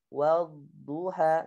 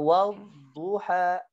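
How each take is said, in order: First: The letters flow smoothly without pressure. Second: The letters are pressed hard and abruptly. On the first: The speaker calls it right. "ngalir aja dia" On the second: The speaker calls it wrong. "Jangan bacanya wal duha"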